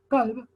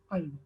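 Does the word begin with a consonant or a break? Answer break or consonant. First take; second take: consonant; break. First: It begins with a consonant made far back. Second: It begins with a short break in the voice.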